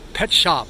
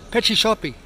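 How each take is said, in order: First: Plain English pronunciation, with no added vowels. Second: Portuguese accent, with an extra vowel after each word. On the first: "just like in English" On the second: "they pronounce it petchy shoppy"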